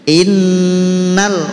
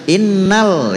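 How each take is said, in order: First: The nasal nn is held for two beats. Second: The nasal nn is cut short. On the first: The speaker calls it right. "Jadi dengungnya saja dua" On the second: The speaker calls it wrong. "langsung innal, itu belum dua itu"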